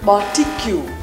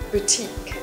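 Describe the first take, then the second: First: The word sounds like 'barbecue'. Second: The word sounds like 'boutique'. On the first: The speaker calls it wrong. "If you pronounce the barbecue, you're not alone" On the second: The speaker calls it right. "try correct your pronunciation to this word"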